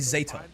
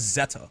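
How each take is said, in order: First: The first vowel sounds like 'ay'. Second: The first vowel sounds like 'eh'. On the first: "I say Zeta, like Z A Y T A" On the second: "the announcer says like Z E T T A"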